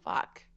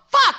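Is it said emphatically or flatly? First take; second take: flatly; emphatically. First: It is said quietly and flatly. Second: It is said loudly and emphatically.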